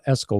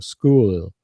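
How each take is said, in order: First: An extra vowel sound comes before the s. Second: The word starts directly with the s sound. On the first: The speaker calls it wrong. "you don't say S school because it's not S school" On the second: The speaker calls it right. "We just start with the S sound"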